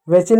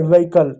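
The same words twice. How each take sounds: First: व्हीकल misread as ve-chil. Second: व्हीकल as ve-i-kal; silent H. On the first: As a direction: put a ch sound in व्हीकल. (च की आवाज़ से "व्हीकल") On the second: (एच बिना "व्हीकल") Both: Shown as a demonstration. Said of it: "व्हीकल नहीं".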